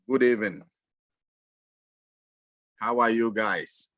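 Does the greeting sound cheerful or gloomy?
gloomy. It sounds flat and not cheerful.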